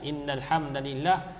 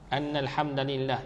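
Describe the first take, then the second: First: The first word begins with an 'i' vowel. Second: The first word begins with an 'a' vowel. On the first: "diriwayatkan dengan kasrah" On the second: "fathah baris atas inna ataupun anna"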